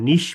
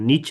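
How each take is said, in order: First: The word ends with an 'sh' sound. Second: The word ends with a 'ch' sound. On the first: The speaker calls it right. "এখানে যখন বলবো নিশ" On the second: The speaker calls it wrong. "নিচ না"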